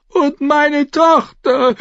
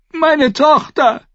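First: High, slow, drawn-out wail; sobbing. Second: High, loud, slow scream. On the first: Mother reminding the knights of her missing daughter, sobbing. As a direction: sob it out as a desperate plea. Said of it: "schluchzte Lady Thunder". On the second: Mother of a girl left in the riot, screaming. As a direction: scream out for your child. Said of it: "schrie Lady Thunder". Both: A narrator's reading.

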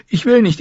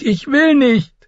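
First: High, frantic refusal; panicked refusal. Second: Even higher, desperate refusal; rising panicked refusal. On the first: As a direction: refuse him in terror. (hohe, panische Weigerung) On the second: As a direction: refuse again near breaking. (noch höher, verzweifelte Weigerung) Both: A narrator's reading.

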